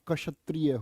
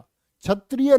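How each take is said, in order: First: The word begins with a 'ksh' sound. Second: The word begins with a 'chh' sound. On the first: The speaker calls it right. "होता है" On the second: The speaker calls it wrong. "नहीं होता"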